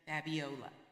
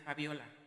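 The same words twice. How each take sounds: First: The name is pronounced with English sounds. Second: The name is pronounced with Spanish sounds. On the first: It is adapted so English speakers understand it. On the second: This is how the name is said at home.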